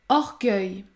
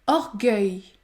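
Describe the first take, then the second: No difference in how they are said.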